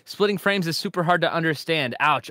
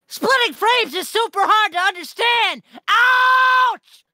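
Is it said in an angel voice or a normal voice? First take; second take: normal voice; angel voice. First: It is read in his normal voice. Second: It is shouted loudly in a put-on angel voice.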